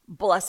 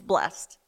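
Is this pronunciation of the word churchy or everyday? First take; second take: churchy; everyday. First: The word is said in a formal, churchy way. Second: The word is said in a plain, everyday way. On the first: It is the religious, formal use of the word. "Blessed is my churchy pronunciation" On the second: It is the ordinary, everyday use of the word. "but then when it's just normal life, it's blessed"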